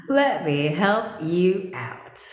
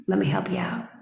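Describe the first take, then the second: First: Drawn out, leaning hard on "Let"; mock-generous, very slow delivery; slow emphatic. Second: Hushed, conspiratorial offer; breathy unvoiced teasing take; mock whisper. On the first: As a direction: spell out "Let me help you out." slowly, word by word, full voice. Same words repeated, slow and full. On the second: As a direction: whisper "Let me help you out." as a sly secret. Teasing offer, whispered then slowed.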